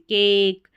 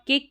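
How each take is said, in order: First: The vowel is drawn out long. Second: The vowel is clipped short. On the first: The speaker calls it right. "यानी long pronunciation" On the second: The speaker calls it wrong. "इसको आप केक नेम नहीं बोल सकते"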